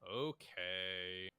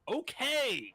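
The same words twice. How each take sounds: First: It is said at normal, soft volume. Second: It is said loudly.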